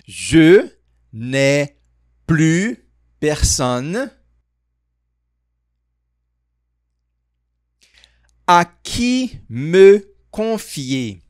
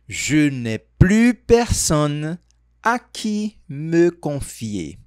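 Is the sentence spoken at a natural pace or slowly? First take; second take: slowly; natural pace. First: It is spoken very slowly and carefully. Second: It is spoken at a natural, quicker pace. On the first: "Agora vamos falar bem devagar" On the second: "Vamos tentar falar um pouco mais natural essa frase"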